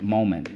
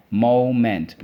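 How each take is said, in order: First: Said in the usual way. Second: "Moment" split as mo, ment; full vowel in the second syllable of "Moment". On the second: Shown as a demonstration. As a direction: chant "Moment" in two strong beats. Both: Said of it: "Let's go".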